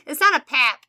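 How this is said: The word is said in a Midwestern accent.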